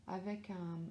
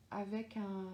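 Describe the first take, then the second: No difference in how they are said.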